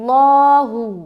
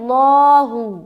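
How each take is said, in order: No difference in how they are said.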